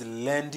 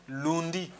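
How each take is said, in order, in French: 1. La première voyelle sonne comme le 'un' français. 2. La première voyelle ne sonne pas comme 'un'. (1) "No, it is lundi. ... That's why it sounds lundi" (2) "Please don't make it sound lundi"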